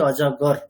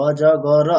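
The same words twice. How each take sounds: First: অজগর as three syllables, o-jo-gor; natural Bangla pronunciation. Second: অজগর as four syllables, o-jo-go-ro; louder অজগর with a vowel sounded after final র; wrong, letter-by-letter reading. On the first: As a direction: close অজগর on the r, no vowel after র. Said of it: "বাংলাতে আমরা কিন্তু উচ্চারণটা করি". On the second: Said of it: "এরকম বলি". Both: Shown as a demonstration.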